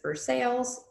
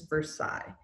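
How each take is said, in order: First: It is said with an English-style pronunciation. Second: It is said with a French pronunciation. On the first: The speaker calls it wrong. "please do not pronounce this" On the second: The speaker calls it right. "In French, this is"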